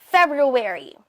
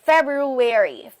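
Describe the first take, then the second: No difference in how they are said.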